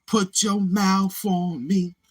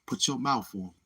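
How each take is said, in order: First: Slow, high crooned lyric; mock crooning. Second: Said in the usual way. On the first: Teasing the guys who love the song, crooning it slowly. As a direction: croon it long and drawn out.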